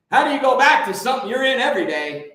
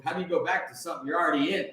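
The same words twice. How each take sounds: First: Raised, pushing the question harder; louder insistent question. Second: Said in the usual way. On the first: Real, not acted. To his viewers, a louder insistent repeat of the question. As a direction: press the point home, louder and quicker. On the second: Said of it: "rhetorical repeat".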